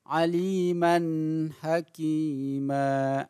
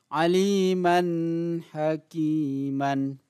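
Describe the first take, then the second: First: The phrase ends with a long a vowel. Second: The phrase ends with an n sound. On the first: This is how it is read when pausing. The speaker calls it right. "harus digantikan dengan aliman hakima" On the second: This is how it is written. The speaker calls it wrong. "Tulisannya hakiman"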